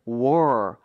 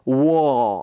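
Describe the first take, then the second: First: The word ends with an R sound. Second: The vowel is drawn out with no R. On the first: "우리가 원하는 발음은 war, R 발음인데" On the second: "그냥 조금 끌어주세요"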